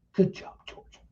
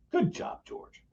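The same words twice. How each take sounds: First: Unvoiced whisper under the breath; whispered to herself. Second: Whispered to herself. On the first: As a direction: breathe it privately to yourself. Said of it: "to herself". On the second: Retold or imitated. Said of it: "like that".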